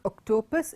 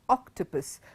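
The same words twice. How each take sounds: First: The stress falls on a misplaced syllable. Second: The stress falls on the expected syllable. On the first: The speaker calls it wrong. "Not octopus" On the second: The speaker calls it right. "it is octopus"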